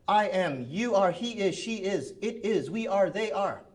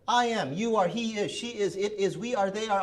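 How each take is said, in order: First: It is said loud at a brisk pace. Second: It is said even faster and louder.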